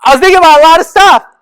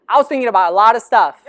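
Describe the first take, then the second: First: Higher, much louder and fast; loud emphatic. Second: Quick, chuckling delivery; laughing. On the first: Telling the audience with loud emphasis. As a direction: belt it out for the crowd. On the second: Laughing to the audience before retelling it. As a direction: toss the line off with a laugh. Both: Shown as a demonstration. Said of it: "Let me tell you that".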